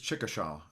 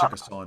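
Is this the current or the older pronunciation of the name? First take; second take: older; current. First: The name is said the older, traditional way. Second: The name is said the current, everyday way. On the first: This is how the name was said in the past. "traditionally it's" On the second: This is how the name is said today. "but we say ... now"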